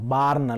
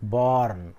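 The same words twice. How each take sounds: First: The vowel is a flat, open 'aa' sound. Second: The vowel is an open, rounded 'aw' sound. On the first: The speaker calls it wrong. "ಬಾರ್ನ್ ಅಲ್ಲ" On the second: The speaker calls it right. "ಅರ್ಧ ಚಂದ್ರ ಇತ್ತಂದ್ರೆ ಅದನ್ನು ನೀವು ಆ ಅಂತ ಓದಬೇಕು"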